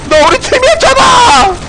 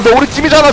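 First: High-pitched protesting shout; 항의하는 외침. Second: Said in the usual way. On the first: Real, not acted. 같은 팀에게 다급히 항의함. (억울하게 높이 외치기)

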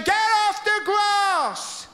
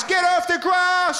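First: Even higher, drawn-out shout; caretaker yelling again. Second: High, slow angry yell; caretaker shouting. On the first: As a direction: stretch the yell out, exasperated. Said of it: "he's saying". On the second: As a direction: bark it like a furious caretaker. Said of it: "The caretaker's telling us". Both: Retold or imitated.

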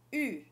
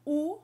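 First: "U" as French u, lips round, tongue forward; "U" with rounded "ee" of French "rue"; French u sound. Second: "U" as French ou, rounded lips like "oo"; "U" like the ou in French "vous"; French ou sound. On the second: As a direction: say "U" as in "pour". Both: Shown as a demonstration.

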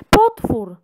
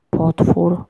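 First: Mild mock scream. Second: Said in the usual way. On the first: A narrator's reading. Girl spots a lake monster, mild mock scream. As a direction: cry out "Potwór!" only lightly alarmed. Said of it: "wrzasnęła Hania".

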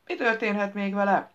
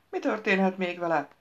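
First: More insistent, higher-pitched question; insistent repeated enquiry; pressing. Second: Mildly curious question; matter-of-fact enquiry; inquiring. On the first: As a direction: press for an answer. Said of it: "forszírozta Boston". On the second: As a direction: ask it plainly, wanting to know. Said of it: "tudakolta bökkenő". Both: A narrator's reading.

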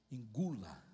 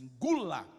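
First: Said in the usual way. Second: A stern father's sudden bark, louder; harsh command. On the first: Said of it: "ele não disse pra mim". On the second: Retold or imitated. Father ordering his crying son to swallow it, harsh bark. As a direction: snap it like a strict father silencing tears. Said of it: "ele dizia assim".

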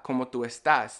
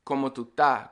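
First: Said in the usual way. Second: "estás" shortened to ta; Caribbean "tú estás" as tu ta; ES cut out. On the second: Shown as a demonstration. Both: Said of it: "That's what I'm saying".

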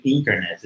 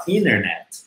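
First: "internet" with the T after N sounded; pronúncia com T. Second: "internet" as "innernet", no T after N; T mudo. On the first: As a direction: say "internet" fully, "in-ter-net". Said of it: "A gente não fala sempre internet". ("internet" com o T, "ínternet") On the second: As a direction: drop the first T in "internet". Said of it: "a gente fala internet". ("internet" sem o T, "ínernet") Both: Shown as a demonstration.

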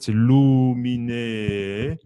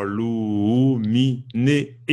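First: Luminé, très lent, le né étiré; étirer luminé lentement; syllabe tenue. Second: Luminé lent avec le lu étiré; étirer le lu de luminé à tort; mauvaise façon. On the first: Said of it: "Donc, c'est, en fait". (luminé chanté lentement, né prolongé) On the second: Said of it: "on ne va pas dire". (luminé avec lu traîné, à ne pas faire) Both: Shown as a demonstration.

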